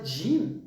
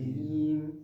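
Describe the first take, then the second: First: The first consonant sounds like a plain French j. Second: The first consonant has a y-like sound in it. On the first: The speaker calls it wrong. "Pas Jim" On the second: The speaker calls it right. "Il faut qu'il y ait le yé. Le son Y"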